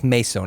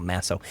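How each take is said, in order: First: Meso with a long "may" first syllable; correct name pronunciation. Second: Masso with a short "mass" first syllable; mistaken name pronunciation. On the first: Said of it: "not Masso". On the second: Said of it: "Oh, that's Meso". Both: Shown as a demonstration.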